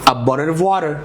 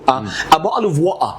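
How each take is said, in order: First: It is spoken in an American accent. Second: It is spoken in a British accent. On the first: "الامريكان بيقول لك" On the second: "ده كده بريتش"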